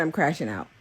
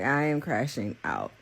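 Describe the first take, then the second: First: Said in the usual way. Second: "I am" said in full and weighted, pitched lower; lower, deliberate stress on "I am crashing out"; emphatic restatement. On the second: Real, not acted. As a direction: spell out "I am" firmly, dropping the pitch.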